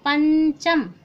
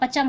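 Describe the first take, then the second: First: The first vowel is nasalized before the consonant. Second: The first vowel has no nasal sound. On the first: The speaker calls it right. "नाक का स्वर भी लगता है" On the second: The speaker calls it wrong. "नाक के स्वर से नहीं बोलेंगे तो क्या होगा, पचम हो जाएगा"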